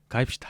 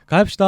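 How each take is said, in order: First: The pitch falls at the end. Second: The pitch rises at the end. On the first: The speaker is guiding someone along. "살짝 좀 비장해요. 안내하는 경우는. 가입시다 하고 내려와요. 끝이" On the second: The speaker is seeing someone off. "배웅하는 가입시다는 밝습니다. 올라가요"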